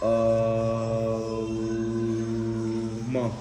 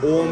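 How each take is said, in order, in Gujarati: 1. ઓમ ને અલગ a, o, m ધ્વનિમાં ખેંચીને બોલાય છે. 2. ઓમ એક ઝડપી, ટૂંકા અક્ષર તરીકે બોલાય છે. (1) "અ પછી ઓ બોલવાનું પછી મ" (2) "ઓમ એમ નહીં"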